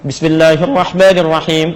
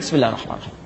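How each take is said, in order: First: It is recited loudly and audibly. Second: It is recited quietly, almost under the breath.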